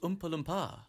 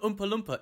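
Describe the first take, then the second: First: The name is said with an exotic-sounding inflection. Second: The name is said in a plain, ordinary way. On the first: "a different inflection on Oompa Loompa. To make it sound more exotic" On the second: "It wasn't Oompa Loompa"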